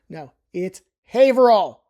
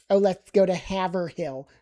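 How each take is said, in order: First: Haverhill said as HAY-vrill, two syllables; firm local Haverhill; correct Haverhill. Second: Haverhill said as HAV-er-hill, every letter sounded; mock tourist saying Haverhill; wrong Haverhill. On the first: Correcting tourists with the local Haverhill. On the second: Mimicking tourists saying Haverhill the wrong way. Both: Shown as a demonstration. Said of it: "a common mistake might be if people say Haverhill".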